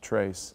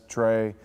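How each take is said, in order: First: The name is said with a Spanish pronunciation. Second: The name is said with a non-Spanish pronunciation. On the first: The speaker calls it right. "it is the Spanish pronunciation" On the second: The speaker calls it wrong. "Some people call it"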